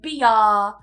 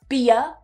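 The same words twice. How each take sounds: First: The final vowel is drawn out long. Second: The final vowel is a very short schwa. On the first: The speaker calls it wrong. "make it longer at the end" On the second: The speaker calls it right. "The schwa is very short"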